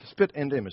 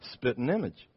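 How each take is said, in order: First: The word 'and' is said clearly and in full. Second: The word 'and' shrinks to a quick 'n' sound.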